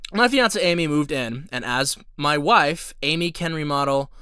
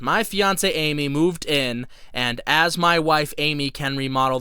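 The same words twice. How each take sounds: First: There is a pause after wife. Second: It runs on with no pause after wife.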